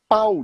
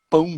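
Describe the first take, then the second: First: The vowel is oral, with no nasal sound. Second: The vowel is nasal, ending in a nasal glide. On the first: "ele fala pau de" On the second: "o americano, o inglês, ele vai falar pão"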